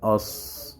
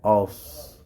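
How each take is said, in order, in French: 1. Le son s est lourd avec une voyelle sombre. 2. Le son s est lourd avec une voyelle sombre.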